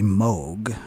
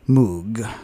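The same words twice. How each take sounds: First: The vowel does not sound like in 'moon'. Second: The vowel sounds like in 'moon'. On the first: This is how the inventor's name is properly said. "the proper pronunciation of the synthesizer is actually Moog" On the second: This is how most people commonly say it. "since so many people pronounce it Moog"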